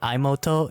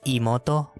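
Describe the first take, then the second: First: The first vowel is not a pure 'ee' sound. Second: The first vowel is a pure 'ee' sound. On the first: The speaker calls it wrong. "not imoto" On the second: The speaker calls it right. "The I there is imoto"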